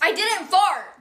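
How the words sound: It sounds angry.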